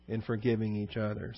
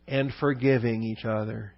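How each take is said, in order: First: Soft echo. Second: Said in the usual way. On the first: Shown as a demonstration. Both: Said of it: "reads then echoes the phrase".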